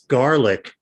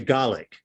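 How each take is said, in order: First: The word is said in a standard accent. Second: The word is said in a Brooklyn accent. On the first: This is how the word is supposed to be said. "It's garlic" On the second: This is how the speaker habitually says it. "I say garlic like I'm from Brooklyn"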